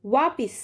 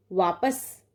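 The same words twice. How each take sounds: First: वापिस with an i in the middle; teacher reading the wrong form, वापिस with i. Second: वापस with no middle i; teacher giving the right form, वापस without i; correct form. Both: Shown as a demonstration.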